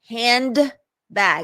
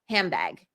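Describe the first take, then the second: First: A clear D sound is heard mid-word. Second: The D changes into a B sound. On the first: The speaker calls it wrong. "I didn't say that" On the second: The speaker calls it right. "the D in handbag changes into a B sound"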